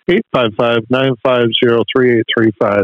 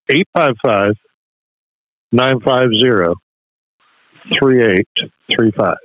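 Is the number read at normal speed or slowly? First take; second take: normal; slowly. First: The number is read at normal speed. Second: The number is read slowly.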